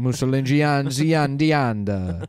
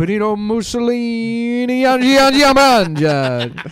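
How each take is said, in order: First: Gian- drawn out slowly at normal pitch; mock stumble. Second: Gian- repeated louder and much higher each time; comic stammer building to a loud cry; hammed-up stuck on Gian-. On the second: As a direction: keep jamming on Gian-, climbing up. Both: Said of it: "say the name normal".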